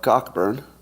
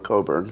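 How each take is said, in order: First: The first part sounds like 'cock'. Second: The first part sounds like 'co'.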